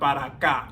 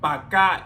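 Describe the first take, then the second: First: The first word is said with both syllables. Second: The first word is shortened to one syllable. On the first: "instead of para acá" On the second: "And pa acá"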